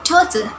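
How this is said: It is spoken with a British accent. "while its British pronunciation it is read daughter"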